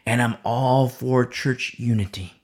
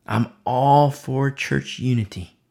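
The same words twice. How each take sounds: First: Said in the usual way. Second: Slow, deliberate line leaning on "church"; stress on church. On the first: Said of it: "But emphasis on the word". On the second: Shown as a demonstration. Preacher qualifies his support for unity, slow stress on "church". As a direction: put the emphasis firmly on "church". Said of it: "But emphasis on the word church".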